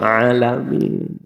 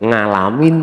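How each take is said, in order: First: It starts with a plain vowel, East Javanese style. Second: It starts with an ng sound, Central Javanese style.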